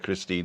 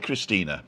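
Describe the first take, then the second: First: The name ends without an extra vowel sound. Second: The name ends with an extra vowel sound. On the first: "if you want to call her Christine, that's also okay" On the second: "she pronounces the E at the end of her name"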